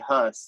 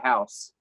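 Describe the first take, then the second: First: The vowel is a short 'uh' sound. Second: The vowel is an 'ow' sound. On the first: The speaker calls it wrong. "You don't say Huss" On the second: The speaker calls it right. "you say house"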